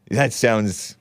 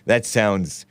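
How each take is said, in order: Both takes have the same delivery.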